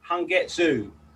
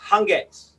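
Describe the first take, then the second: First: The final u sound is clearly pronounced. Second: The final u sound is silent. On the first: The speaker calls it wrong. "a lot of people say Hangetsu" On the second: The speaker calls it right. "that U is silent. So it's like Hangetsu"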